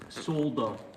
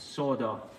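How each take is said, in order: First: The word is given its British pronunciation. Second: The word is given its American pronunciation. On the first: "in the United Kingdom it's pronounced solder" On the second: "in America it's pronounced solder"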